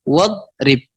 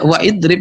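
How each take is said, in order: First: Wa runs straight into drib with no vowel. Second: A separate 'i' vowel is heard before drib. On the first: The speaker calls it right. "Ditambah wawu saja misalnya" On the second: The speaker calls it wrong. "No, tidak waidrib lagi"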